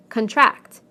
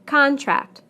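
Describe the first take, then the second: First: Con-TRACT, the verb; stress on second syllable. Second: CON-tract, the noun, falling; stress on first syllable. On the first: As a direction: punch TRACT in contract, weak con. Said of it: "second syllable in the verbs". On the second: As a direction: punch CON in Contract. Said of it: "first syllable in the nouns". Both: Shown as a demonstration.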